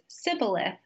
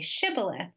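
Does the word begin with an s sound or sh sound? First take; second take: s sound; sh sound. First: The word begins with an s sound. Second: The word begins with a sh sound. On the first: The speaker belongs to an outside group. The speaker calls it wrong. "if somebody pronounced it as Sibboleth" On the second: The speaker belongs to the in-group. The speaker calls it right. "say Shibboleth"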